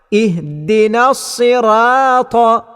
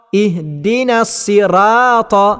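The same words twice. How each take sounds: The two takes are said the same way.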